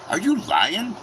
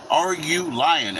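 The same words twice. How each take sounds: First: High rising disbelief, quick; are you serious; incredulous. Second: Slow, drawn-out doubting repeat; stretched-out skeptical repeat; slow disbelief. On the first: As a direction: jump up in mock shock at the news. Disbelief at good blood pressure. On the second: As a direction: lean on it, slower and heavier. Repeats the question slower. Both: Retold or imitated.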